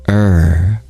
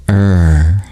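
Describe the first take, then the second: The two takes are said the same way.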